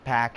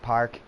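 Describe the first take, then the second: First: The r is dropped, Boston style. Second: The r is pronounced plainly.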